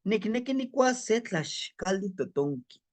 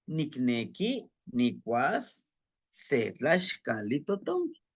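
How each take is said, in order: First: Said in the usual way. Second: Slow, word-by-word Nahuatl demonstration; slow, with pauses between word groups; slow practice reading. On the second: Shown as a demonstration. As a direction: read it out slowly in phrases for learners. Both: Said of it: "Vamos a irlo practicando".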